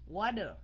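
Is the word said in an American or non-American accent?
American. It is said in an American accent. "Trẻ My phát âm theo giọng Mỹ"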